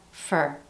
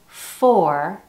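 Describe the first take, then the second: First: The vowel in the word is a weak schwa. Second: The vowel in the word is full. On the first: "using the schwa sound" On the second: "Instead of for"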